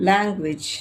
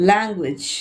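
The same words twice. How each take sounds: No difference in how they are said.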